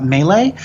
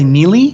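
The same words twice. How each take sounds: First: Melee said MAY-lay; correct melee. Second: Melee said MEE-lee; mispronounced melee. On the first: Language nerd naming a favorite example, melee as MAY-lay. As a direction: say melee French-style, both vowels as "ay". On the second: Imitating people who get it wrong, melee as MEE-lee. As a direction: say melee with two "ee" vowels. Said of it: "A lot of people will say". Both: Shown as a demonstration.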